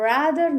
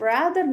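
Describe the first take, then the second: Both takes have the same delivery.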